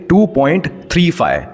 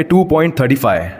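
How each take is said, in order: First: टू पॉइंट थ्री फ़ाइव with थ्री and फ़ाइव said as separate digits; right reading. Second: टू पॉइंट थर्टी फ़ाइव with थर्टी फ़ाइव said as one number; wrong reading. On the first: Teacher gives students the correct decimal reading, plain. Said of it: "हम लोग क्या बोलेंगे". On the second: Teacher warns students against this decimal reading, plain. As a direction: read the digits after the point as थर्टी फ़ाइव, the wrong way. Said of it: "ऐसा नहीं बोलेंगे". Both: Shown as a demonstration.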